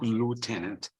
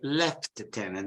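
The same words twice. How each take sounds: First: It is pronounced with an American accent. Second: It is pronounced with a British accent. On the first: The speaker calls it wrong. "not lieutenant ... if you watch an American movie" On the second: The speaker calls it right. "if you go in Britain, you should say lieutenant"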